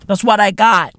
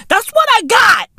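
First: Said in the usual way. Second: Squeaky high repeat. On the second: Acted.

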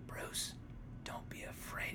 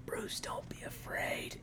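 First: Whispered, hushed and slow; calm whisper. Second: Slow whispered comfort; calm whisper. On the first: Friend mocks a dying father's calm last words, whispered. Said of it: "Thomas turns over so calmly". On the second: Friend repeats the dying father's line, whispered and slow. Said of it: "it's just like". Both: Retold or imitated.

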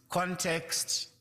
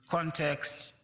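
The two takes are said the same way.

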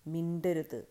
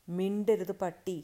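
First: Said in the usual way. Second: Loud, slow, angry order; roared command. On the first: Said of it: "ഒരാൾ പറഞ്ഞു". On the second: A narrator's reading. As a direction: growl out the order, a touch of roar. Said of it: "കിതച്ചുകൊണ്ട് ഗർജിച്ചു". (ഗർജിക്കുന്ന ആജ്ഞ)

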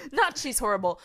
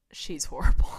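First: Said in the usual way. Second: Sneering she's horrible; imitating a hater's scorn; mock disgusted student.

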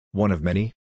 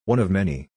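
First: "One of many?" rising in disbelief; incredulous. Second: Said in the usual way. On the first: A narrator's reading. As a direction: repeat "One of many?" as a doubtful question, rising at the end. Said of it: "I repeated incredulously". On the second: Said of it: "she answered".

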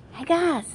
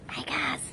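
First: Higher, louder call to the group. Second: Breathy whispered hey guys; whispered call. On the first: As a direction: call out to get their attention. Calling the disciples out loud. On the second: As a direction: call them in a hush. Calling the disciples softly. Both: Acted.

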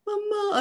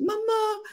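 First: Put-on high frightened child's mama; childlike frightened call; scared little boy. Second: Put-on high child's cry of mama; high scared little boy voice; scared kid calling. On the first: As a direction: whimper it high like a scared kid. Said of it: "así todo asustadillo". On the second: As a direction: squeak it like a frightened six-year-old. Boy calls mother, scared.

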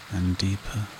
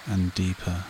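No difference in how they are said.

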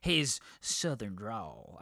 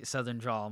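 First: Slow, lightly drawn-out southern drawl try; attempted southern drawl. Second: Said in the usual way. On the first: Shown as a demonstration. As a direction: stretch the words in a mild Texas drawl. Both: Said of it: "I can't do a good, like, southern drawl".

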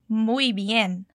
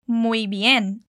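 First: Muy bien repeated a little softer. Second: Muy bien said clearly for the learner; model phrase. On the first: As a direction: say Muy bien again for the learner. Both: Shown as a demonstration. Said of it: "E como falamos muito bem?".

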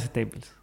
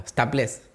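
First: Staples said the English way, STEI-pls. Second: Staples said as written, STA-ples; Spanish-style Staples. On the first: Co-host answering which Staples is right, in English. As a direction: say staples with an English long a, swallowing the end. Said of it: "esa es staples". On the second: Host asked how he says Staples, giving the spelled version. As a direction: read Staples letter by letter like Spanish. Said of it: "cómo pronunciás staples". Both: Shown as a demonstration.

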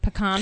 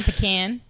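First: "Pecan" said as puh-KAHN; pronunciation contrast. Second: "pecan" said as puh-CAN; pronunciation contrast. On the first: Co-host trying both versions, "Pecan" pronounced puh-KAHN. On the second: Co-host trying both versions, "pecan" pronounced puh-CAN. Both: Shown as a demonstration. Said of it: "How do you say pecan".

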